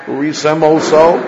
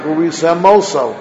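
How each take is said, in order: First: "Urisem oso" with a clean break before "oso"; separated words; careful pause. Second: "Urisem oso" slurred so the m joins "oso"; blurred into one word; run together. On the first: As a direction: stop briefly, then start "oso" fresh. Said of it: "So it's easy to sound like". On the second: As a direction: let "m" slide straight into "oso", wrong way. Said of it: "it's easy to sound like". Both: Shown as a demonstration.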